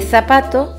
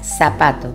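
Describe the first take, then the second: First: It begins with a th sound. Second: It begins with an s sound. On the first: "en lugar de zapato" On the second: "pronunciar el sonido Z como S"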